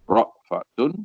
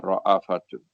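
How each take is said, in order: First: No vowel follows the glottal stop. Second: A short a vowel follows the glottal stop. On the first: "bi iskanil hamzah, itu bacaan yang masyhur" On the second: "wa quri'a ra'afatun"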